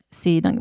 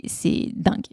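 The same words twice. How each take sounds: First: Said in the usual way. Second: Whispered "c'est dingue" in awe. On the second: Real, not acted. Host amazed at the heap of clothes, whispered. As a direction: breathe it out in disbelief.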